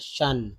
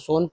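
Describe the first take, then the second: First: The vowel sounds like uh. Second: The vowel sounds like oh. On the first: The speaker calls it right. "अ के रूप में पढ़ा जा रहा है" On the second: The speaker calls it wrong. "इसको सोन पढ़ेंगे क्या?"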